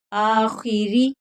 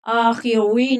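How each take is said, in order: First: आखिरी slowly, with a light, thin ra. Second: आखिरी with a thick, heavy ra, the wrong way. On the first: Teacher showing the correct thin ra in आखिरी. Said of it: "रा को बारीक पढ़ना है". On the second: Teacher showing the wrong heavy ra in आखिरी. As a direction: say आखिरी with a dark ra as the mistake. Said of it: "आखिरी नहीं पढ़ना". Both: Shown as a demonstration.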